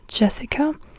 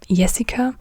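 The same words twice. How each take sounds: First: The name begins with an English J sound. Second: The name begins with a Y sound. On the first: "in English you would say Jessica" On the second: "but in German you say Jessica"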